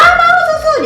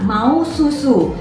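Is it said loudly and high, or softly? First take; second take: loudly; softly. First: It is said loudly in a high voice. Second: It is said softly and gently. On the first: "jadi dia masih tinggi" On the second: "Ngomongnya pelan-pelan"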